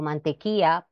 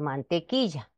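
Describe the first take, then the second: First: The palatal consonant before a is dropped. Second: The palatal consonant before a is pronounced. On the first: The speaker calls it wrong. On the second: The speaker calls it right.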